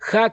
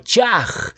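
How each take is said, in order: First: The word begins with a breathy h sound. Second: The word begins with a ch sound. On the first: The speaker calls it right. "el saludo hebreo para la fiesta de Sukkot es Hag Shameach Sukkot" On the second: The speaker calls it wrong. "la forma Chaj con fonética Che"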